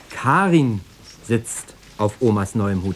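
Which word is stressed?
Karin. The stress falls on the word Karin. It is Karin, not someone else, sitting there. "Ja, natürlich, Karin"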